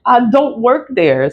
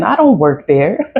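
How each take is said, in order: First: Laughing. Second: Said in the usual way. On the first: Real, not acted. Repeats it, laughing. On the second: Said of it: "I don't work there (said again)".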